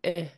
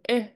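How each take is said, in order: First: The short vowel is said on a low pitch. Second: The short vowel is said on a high pitch. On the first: "Short and low" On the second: "And high tone"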